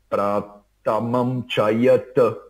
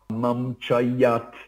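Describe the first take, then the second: First: The final t is followed by a short vowel. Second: The final t stops with no vowel after it. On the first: "Chayata é um jeito de" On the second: "Ou sinon"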